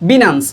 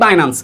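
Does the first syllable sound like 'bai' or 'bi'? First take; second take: bi; bai. First: The first syllable is said as 'bi'. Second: The first syllable is said as 'bai'. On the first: This is the original pronunciation. "রিয়েল উচ্চারণ translate ক্ষেত্রে পাওয়া যায় বিনান্স" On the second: This is how people here usually say it. "আমরা এমনিতে বলি বাইন্যান্স"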